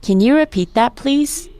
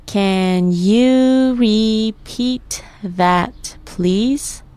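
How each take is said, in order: First: Said in the usual way. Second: Very slow, "Can you repeat that, please" stretched out; syllable by syllable. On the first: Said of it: "I'll say the phrase or sentence". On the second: Shown as a demonstration. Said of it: "Let's break it down by syllable".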